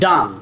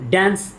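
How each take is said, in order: First: The vowel is open and back, as in car. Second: The vowel is short and front, as in cat. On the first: The speaker calls it right. "এটার সঠিক উচ্চারণ হলো ডান্স" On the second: The speaker calls it wrong. "এটার সঠিক উচ্চারণ কিন্তু ড্যান্স নয়"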